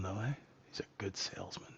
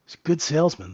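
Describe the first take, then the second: First: Whispered aside. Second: Said in the usual way. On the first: Real, not acted. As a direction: whisper it to yourself. Aside on the dodgy CEO.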